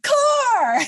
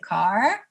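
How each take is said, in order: First: It is said with lively, exclamatory energy. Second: It is said flatly, without much energy.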